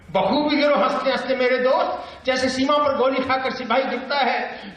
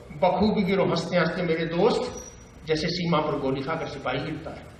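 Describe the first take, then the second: First: High, declaimed verse; raised-pitch poetic recital; Bhavani Prasad Mishra. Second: Understated conversational verse; Bhavani Prasad Mishra. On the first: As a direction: send the lines out high to the crowd. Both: Acted. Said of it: "बातचीत की शैली".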